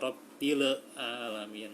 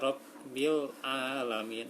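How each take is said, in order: First: The b bounces with an extra e sound. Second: The b closes cleanly with no extra vowel. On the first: The speaker calls it wrong. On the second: The speaker calls it right.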